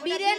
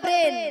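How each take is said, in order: First: A vowel splits it into two syllables. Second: It is one syllable with a b-r cluster. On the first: The speaker calls it wrong. "ওটা বীরেন নয়" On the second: The speaker calls it right. "বলো ব্রেন"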